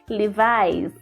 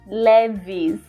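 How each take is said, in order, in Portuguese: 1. A segunda vogal soa como 'eye'. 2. A segunda vogal soa como 'ee'. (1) "na verdade na língua inglesa é Levi's ... é o som de I no inglês" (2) "eu pronunciei assim errado"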